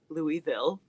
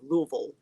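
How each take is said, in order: First: Each syllable is said clearly and fully. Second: It is swallowed at the back of the throat. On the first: The speaker calls it wrong. "I try to say it correctly instead of, you know" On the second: The speaker calls it right. "You got to kind of swallow it. ... It's kind of at the back back of your throat there"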